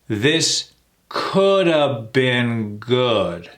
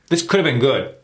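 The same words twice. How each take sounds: First: The phrase is said slowly. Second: The phrase is said very fast. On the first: "Let's slow that down" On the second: "Super, super fast"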